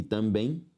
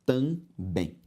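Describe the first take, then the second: First: Said in the usual way. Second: "também" split as tam, bém; syllable by syllable. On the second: Shown as a demonstration. Teacher separating the word for students, syllable by syllable. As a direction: pause inside "também". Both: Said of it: "se eu separo".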